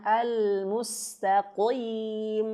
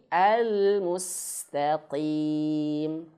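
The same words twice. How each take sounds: First: Al-mustaqim with qaf made too thick and heavy; showing the wrong heavy reading; overly heavy qaf. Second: Al-mustaqim slowly, qaf thick but light; teacher's correct reading; lightly heavy qaf. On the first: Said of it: "Jangan bacanya". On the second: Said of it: "Biasa saja ya". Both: Shown as a demonstration.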